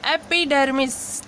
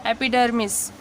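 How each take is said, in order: First: एपिडर्मिस spelled out slowly, ए clear; slow model word. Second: एपिडर्मिस repeated lower with a falling end. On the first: Teacher modelling एपिडर्मिस to students, slowly. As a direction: read एपिडर्मिस slowly for learners. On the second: Teacher repeating the word for students to copy. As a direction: close on एपिडर्मिस, dropping low. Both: Shown as a demonstration. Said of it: "इसको पढ़ते हैं".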